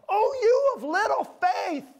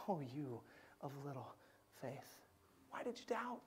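First: Much higher, louder, slow scolding voice; harsh Jesus. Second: Far softer, hushed and tender; compassionate Jesus. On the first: Preacher voices a harsh Jesus to the congregation, loud high scolding. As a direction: play Jesus as a stern, exasperated scold. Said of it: "I wonder if you hear him go". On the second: Preacher voices Jesus with compassion, soft hushed tenderness. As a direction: say it like a gentle father to a frightened child. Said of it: "with that heart of compassion". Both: Pretend.

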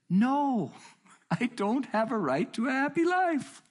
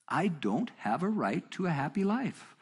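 First: Very high, loud, held-up protest; emphatic retold outburst. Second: Slow, raised-pitch insistence, not shouted; measured emphatic restatement. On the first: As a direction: cry it out high, hammering the refusal. Retold outburst answering frustrated questioner. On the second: Retold or imitated. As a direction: restate it deliberately, word by word. Repeats his answer less explosively.

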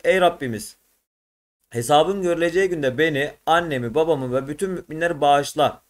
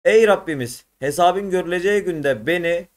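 First: Said in the usual way. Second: Reading the prayer aloud. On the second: Shown as a demonstration. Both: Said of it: "Yukarıda anlamı verilen dua".

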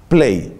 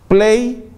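First: Low, dropping "play" to close it; sarcastic low falling "play"; flat falling play. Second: High, rising mock "Play"; sarcastic high "Play" pressing the tape button. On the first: Retold or imitated. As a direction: let "play" fall flat and dismissive. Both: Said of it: "empieza a evangelizar con la manito y el dedito".

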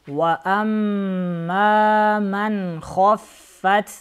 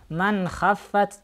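First: Slow chanted "хаффат" with a heavy, rounded kho; measured tajweed, heavy "ха" in "хаффат"; hard KHA. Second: "хаффат" with a thin, open a after kh; faulty unrounded "ха", quicker than chanting; wrong light KHA. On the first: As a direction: recite "хаффат" with ха darkened towards "хо". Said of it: "Ха нужно читать твердо". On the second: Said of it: "не надо читать". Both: Shown as a demonstration.

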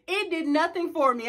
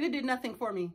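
First: Said in the usual way. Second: Flat dismissive quote. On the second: Retold or imitated. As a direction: shrug it off under your breath. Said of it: "And I said".

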